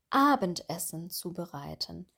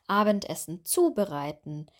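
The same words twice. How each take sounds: First: The stress is on the noun. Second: The stress is on the verb. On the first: The speaker calls it right. "Wir betonen hier immer das Nomen" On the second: The speaker calls it wrong. "dass sie vor allem das Verb betonen"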